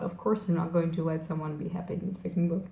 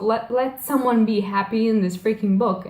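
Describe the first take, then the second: First: Softer, quick, muttered aside to oneself; retold thought, dropped low in volume; resigned inner thought. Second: Retold outburst at a cruel book; exasperated plea. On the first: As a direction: give up on it under your breath. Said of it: "And then I thought". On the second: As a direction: plead with the author, half in earnest. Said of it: "breathe, and just say".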